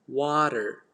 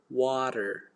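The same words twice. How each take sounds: Both takes have the same delivery.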